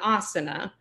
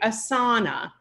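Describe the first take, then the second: First: The first vowel is long, the middle short. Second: The middle vowel is long, the first short. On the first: The speaker calls it right. "there's a long sound at the beginning and why there's a shorter sound in the middle" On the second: The speaker calls it wrong. "I hear people a lot of times saying asana"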